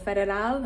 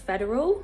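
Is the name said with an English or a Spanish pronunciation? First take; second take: Spanish; English. First: The name is said with Spanish pronunciation. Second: The name is said with English pronunciation.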